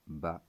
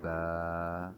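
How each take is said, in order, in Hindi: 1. यह अचानक झटके से, गले में रुककर खत्म होता है। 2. स्वर लंबा और सहजता से खिंचा हुआ होता है। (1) "बच्चे हरूफ के आखिर में हमज़ा की आवाज़ पैदा न करें" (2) "इनको ज़रा खींच कर पढ़ना होगा"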